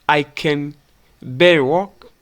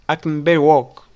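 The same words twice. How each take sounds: First: The word can is said fully and clearly. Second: The word can is reduced to kin. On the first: The speaker calls it wrong. "instead of" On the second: The speaker calls it right. "we pronounce it like kin"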